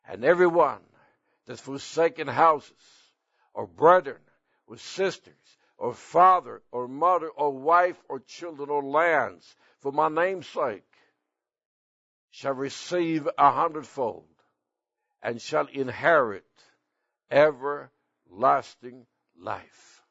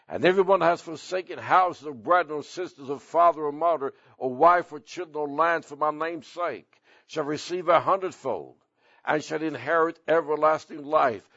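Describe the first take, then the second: First: The verse is read at a slower pace. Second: The verse is read at a faster pace.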